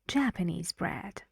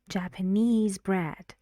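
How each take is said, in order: First: Japanese is stressed on its first syllable. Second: Japanese is stressed on its last syllable. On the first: The speaker calls it right. "the stress moves to a syllable before it on Jap" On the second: The speaker calls it wrong. "we don't say"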